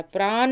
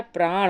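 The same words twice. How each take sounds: First: प्राण ending in dental n, "praan"; plain n at the end of प्राण; wrong form. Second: प्राण ending in retroflex ṇ; correct form. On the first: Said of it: "प्राण नहीं होता है". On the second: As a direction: curl the tongue to end प्राण. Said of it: "प्राण होता है". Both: Shown as a demonstration.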